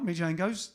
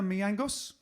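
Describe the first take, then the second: First: The middle has a hard J sound. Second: The middle has no hard J sound. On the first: The speaker calls it wrong. "not Mijangos. Don't say that" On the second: The speaker calls it right. "you pronounce the J differently"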